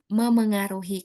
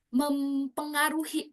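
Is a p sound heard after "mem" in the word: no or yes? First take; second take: no; yes. First: No p sound follows the first m. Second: A p sound follows the first m. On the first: The speaker calls it right. "padahal yang baku memengaruhi" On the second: The speaker calls it wrong. "Selama ini kita sering bilangnya mempengaruhi"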